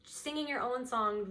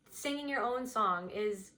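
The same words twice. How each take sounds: First: Said in the usual way. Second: Your leaned on a little more than the other words; stress on your. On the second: Shown as a demonstration. Reader restating the phrase to the viewer, your stressed. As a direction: give your a gentle push.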